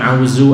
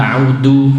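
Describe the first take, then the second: First: The middle consonant is a z sound. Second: The middle consonant is a d sound. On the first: "bukan zaid"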